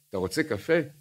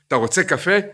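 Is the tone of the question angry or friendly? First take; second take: friendly; angry. First: It is asked in a warm, friendly tone. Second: It is asked in a furious, angry tone. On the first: The asker wants to do something nice for the friend. "ככה, הוא רוצה עכשיו לעשות לו משהו טוב" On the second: The asker is extremely irritated at the friend. "בכזה עצבים, שאדם כבר נבהל רק מהעצבים שיש לו"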